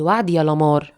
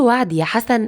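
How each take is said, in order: First: «وعد» set low as a firm answer; assuring promise. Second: «وعد» raised in a searching question; questioning promise. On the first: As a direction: answer «وعد يا لمار» lower, as a settled statement. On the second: Asks him for a promise. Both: Acted.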